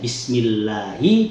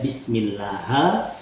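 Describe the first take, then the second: First: The word ends with an i vowel. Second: The word ends with an a vowel. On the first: The speaker calls it right. "harusnya Bismillahi" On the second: The speaker calls it wrong. "Ha atau hu itu adalah lahan"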